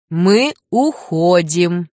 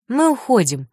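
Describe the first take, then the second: First: Мы уходим slow, louder, each word pressed; stricter. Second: Said in the usual way. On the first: Acted. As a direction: say Мы уходим firmly and slowly, stern. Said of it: "Лю повторил строже". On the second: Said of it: "сказал бодро".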